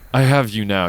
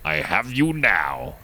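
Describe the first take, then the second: First: It is said in a warm, reassuring tone. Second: It is said in a dark, threatening tone. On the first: The speaker will keep the listener safe. "I have you with me. Now I'm here to protect" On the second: The speaker has trapped the listener as prey. "Darth Vader aiming for Luke Skywalker in his sights going"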